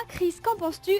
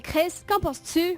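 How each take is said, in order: First: Said in the usual way. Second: «Chris, qu'en penses-tu?» slowed, vowels dragged in a mock Quebec accent; fake Quebec accent. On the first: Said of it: "on ne dira pas". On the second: Shown as a demonstration. [name] teaching the French her mock Quebec accent.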